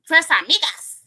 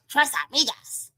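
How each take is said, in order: First: Tres Amigas with an English-sounding Tres and a flat Amigas; Vicky's way of saying it. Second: Tres Amigas with a tapped Spanish r and open vowels, rising at the end; proper Spanish. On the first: Retold or imitated. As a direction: say Tres Amigas the way Vicky says it, not like Spanish. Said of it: "That's how she says it". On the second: Shown as a demonstration. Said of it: "I wanna say it right".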